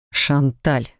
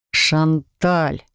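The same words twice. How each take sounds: First: Low, restrained growl of a name; near growl. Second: Long-suffering drawn-out name; pleading. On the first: Husband interrupts his chattering wife, nearly growling. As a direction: cut in low, mildly exasperated. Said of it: "Едва не рыча прервал меня". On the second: Husband begs his babbling wife to stop, pleading. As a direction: implore her with mild suffering. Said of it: "взмолился Себастьян, страдальчески". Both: A narrator's reading.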